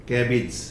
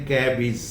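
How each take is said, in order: The two takes are said the same way.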